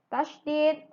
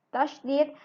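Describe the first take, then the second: The two takes are said the same way.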